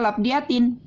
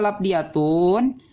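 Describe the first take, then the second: First: The word ends with the sound -in. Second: The word ends with the sound -un. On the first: It agrees with the genitive word before it. "Boleh juga dia dibaca labdiyatin, menjadi badal dari lafaz amilin" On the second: It agrees with the nominative word before it. "Kenapa dibaca labdiyatun? Karena dia menjadi badal daripada lafaz mi'atun"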